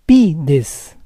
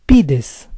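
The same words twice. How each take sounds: First: Pides split as PI-des; syllable by syllable. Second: Said in the usual way. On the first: Shown as a demonstration. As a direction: say Pides in parts, stressing PI. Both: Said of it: "stress is on the second to last syllable".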